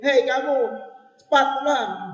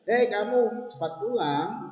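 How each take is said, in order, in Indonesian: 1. Diucapkan dengan tegas dan penuh emosi. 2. Diucapkan dengan nada naik seperti pertanyaan. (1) "Beda dengan yang tanda seru" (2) "kalau diberi tanda tanya jadinya aneh"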